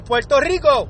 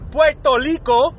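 First: The R sounds are pronounced as clear R's. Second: The R sounds are softened to sound like L. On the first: The speaker calls it right. "We never kill the R on Puerto Rico" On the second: The speaker calls it wrong. "We don't say Puerto Rico"

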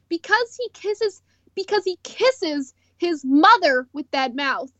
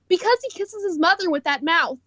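First: It is said slowly with added emphasis. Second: It is said at a normal, quicker pace.

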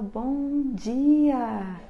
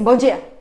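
First: The greeting sounds warm and cheerful. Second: The greeting sounds flat and unenthusiastic.

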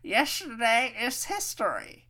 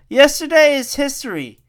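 First: It is said in a Master Oogway voice. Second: It is said in his normal voice.

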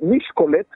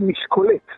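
First: The stress placement makes it sound Hungarian. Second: The stress placement makes it sound French. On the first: "שזה נשמע הונגרי בכלל" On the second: "שזה נשמע צרפתי"

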